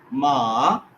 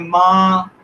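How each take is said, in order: First: The pitch follows a curved contour. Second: The pitch stays flat and level. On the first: It means horse. "Curve tone" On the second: It means mother. "Flat tone है first tone"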